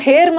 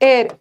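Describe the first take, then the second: First: The word begins with an h sound. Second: The word begins directly with a vowel. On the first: The speaker calls it wrong. "इसको हेयर मत पढ़ना" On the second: The speaker calls it right. "एच silent है"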